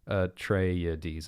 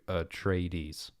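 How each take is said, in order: First: The name is said with four syllables. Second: The name is said with three syllables. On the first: "Frank Herbert says Atreides. It's like four syllables" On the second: "as opposed to"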